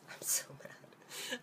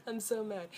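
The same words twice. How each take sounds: First: A hushed, slow whisper of fury; whispered anger. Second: Said in the usual way. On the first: Real, not acted. Venting about Japanese healthcare in a slow whisper. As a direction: seethe it under your breath, slowly.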